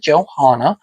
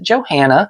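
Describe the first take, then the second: First: The name is not said as it is spelled. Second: The name is said just as it is spelled. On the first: The speaker calls it right. "we do pronounce it Johanna Parker" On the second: The speaker calls it wrong. "which is how it's spelled"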